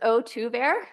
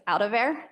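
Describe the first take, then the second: First: It is said in a neutral standard accent. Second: It is said in a Northeastern Ohio accent.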